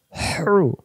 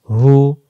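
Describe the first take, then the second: First: "হ্রু" as whooshing pharyngeal h, no r; hissing throaty hu. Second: "হু" with an open h; easy, unsqueezed "হু"; plain hu. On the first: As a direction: squeeze the breath on "হ্রু". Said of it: "শো শো আওয়াজে". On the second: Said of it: "দুই অক্ষর দুই রকম উচ্চারণ". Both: Shown as a demonstration.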